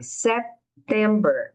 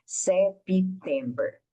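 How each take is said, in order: First: September with a very light P, barely closed lips; slow teacher model; soft P. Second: September said as se-pi-tember with an added vowel; wrong extra syllable. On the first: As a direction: close the mouth just a little on the P in September. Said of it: "esse P é bem suave". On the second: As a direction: show the mistake, se-pi-tember. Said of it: "Você não precisa criar uma outra sílaba". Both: Shown as a demonstration.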